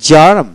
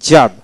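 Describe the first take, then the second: No difference in how they are said.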